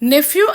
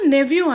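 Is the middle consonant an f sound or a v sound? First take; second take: f; v. First: The middle consonant is an f sound. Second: The middle consonant is a v sound. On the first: "నెఫ్యూ అనొచ్చు" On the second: "నెవ్యూ అనొచ్చు"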